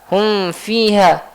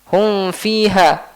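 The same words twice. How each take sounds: Both takes have the same delivery.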